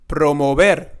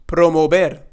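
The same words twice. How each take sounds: No difference in how they are said.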